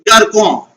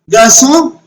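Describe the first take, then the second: First: The middle consonant is a hard k sound. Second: The middle consonant is a soft s sound. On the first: The speaker calls it wrong. "So I am not pronouncing like Garcon" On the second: The speaker calls it right. "Rather I am pronouncing it Garçon"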